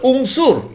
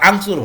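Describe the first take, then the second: First: The word begins with an u vowel. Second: The word begins with an a vowel. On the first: The speaker calls it right. "তাহলে উংসুর হলো" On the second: The speaker calls it wrong. "আংসুর হলো না"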